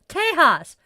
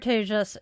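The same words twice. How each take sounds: First: The J sounds like an English H. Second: The J sounds like an English J. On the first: "That is pronouncing it in Spanish" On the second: "I am so hopeful I pronounced that right"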